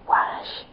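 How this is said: The word has a west-of-Scotland Glasgow vowel. "in the west coast of Scotland, so sort of Glasgow way, a lot of people would say"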